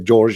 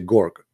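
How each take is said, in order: First: The name begins with a soft J sound. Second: The name begins with a hard G sound. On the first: "You say George" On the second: "in Egypt, the letter J, they don't say J"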